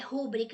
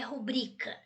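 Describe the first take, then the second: First: The stress is on the first syllable. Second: The stress is on the second syllable. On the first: The speaker calls it wrong. "não é rúbrica" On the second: The speaker calls it right. "é rubrica. ... uma paroxítona"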